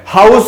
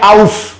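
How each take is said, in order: First: The word begins with a clear h sound. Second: The word begins directly with a vowel. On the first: The speaker calls it right. "हाउस में ह की sound आती है" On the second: The speaker calls it wrong. "एच को silent करके क्यों नहीं पढ़ रहे आउस"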